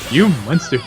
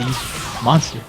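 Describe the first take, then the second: First: It is said imitating Apu's voice. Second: It is said in his normal voice.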